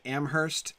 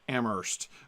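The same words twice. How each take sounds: First: The h sound is pronounced in the middle. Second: The h sound is silent in the middle. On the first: This is how it is said in New Hampshire. "I keep saying Amherst, ... I always pronounce it that way" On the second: This is how it is said in Massachusetts. "in Massachusetts they don't pronounce the H ... it's actually Amherst"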